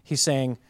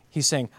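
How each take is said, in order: Both takes have the same delivery.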